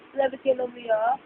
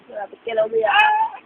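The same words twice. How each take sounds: First: Soft quick murmur; softer, faster aside. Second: High cooing teasing. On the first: Parent repeating softly, quicker to baby. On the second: Parent teasing baby in high coo. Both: Real, not acted.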